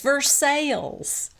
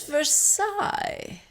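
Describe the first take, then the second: First: Versailles is said the local Kentucky way. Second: Versailles is said the standard, non-Kentucky way. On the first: The local pronunciation is used as a correction. "Brittany corrects Lisa and says" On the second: The usual pronunciation is insisted on. "But it's Versailles"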